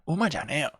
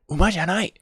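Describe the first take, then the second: First: The last word ends with a reduced 'eo' sound. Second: The last word ends with a full 'ai' sound.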